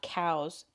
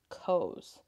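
First: The vowel sounds like the one in cows. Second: The vowel sounds like the one in toes. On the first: The speaker calls it wrong. "Not cows" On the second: The speaker calls it right. "Like toes"

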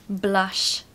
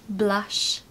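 Both takes have the same delivery.

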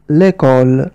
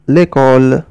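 Both takes have the same delivery.

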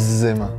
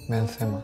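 First: The name is pronounced with French sounds. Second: The name is pronounced with Spanish sounds. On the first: "¿En francés?" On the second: "¿Y en castellano?"

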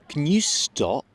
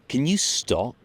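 The two takes are said the same way.

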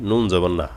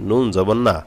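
Both takes have the same delivery.

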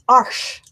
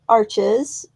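First: The name is said with a non-American pronunciation. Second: The name is said with an American pronunciation. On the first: The speaker calls it right. "What is the correct pronunciation? Okay, it's Arch" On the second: The speaker calls it wrong. "That's how we stupid Americans pronounce it"

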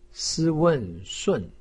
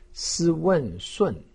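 No difference in how they are said.

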